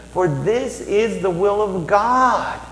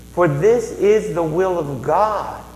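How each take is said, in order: No difference in how they are said.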